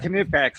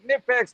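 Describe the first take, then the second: First: The initial K sound is pronounced. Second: The initial K sound is silent. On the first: "I'm just gonna say it that way because that's the way I said it in that video" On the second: "don't pronounce the K"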